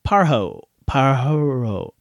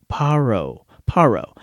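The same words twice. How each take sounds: First: Parho, guessed with an h; trying out Parho; unsure pronunciation. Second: Parro, with a rolled r; settling on Parro; corrected pronunciation. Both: Real, not acted. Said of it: "didn't look up how to pronounce".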